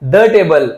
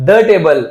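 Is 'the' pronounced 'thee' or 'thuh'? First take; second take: thuh; thuh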